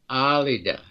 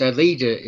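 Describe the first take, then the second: First: The first syllable is stressed. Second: The first syllable is not stressed. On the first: This is the name's own original pronunciation. The speaker calls it right. "with the accent on the first A" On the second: This is how English speakers would say the name. The speaker calls it wrong. "is how English people would pronounce it"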